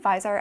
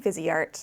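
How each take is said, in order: First: The name is said as viz-art. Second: The name is said as vees-ay-art. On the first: This is the speaker's own way of saying it. The speaker calls it right. "I say Vizart" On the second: This is a way the speaker does not say it. The speaker calls it wrong. "Viseart sounds wrong to me"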